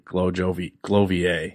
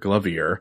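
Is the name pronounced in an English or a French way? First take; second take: French; English. First: The name is pronounced the French way. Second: The name is pronounced the plain English way. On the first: "if he's more French than I am" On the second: "if he pronounces it like I would"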